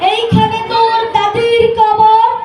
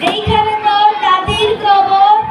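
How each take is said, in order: First: It is recited in a grand, speechmaking voice. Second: It is recited in a plain, ordinary voice. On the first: A politician is reciting. "একজন রাজনীতিবিদ" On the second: An ordinary person is reciting. "একজন সাধারণ মানুষ"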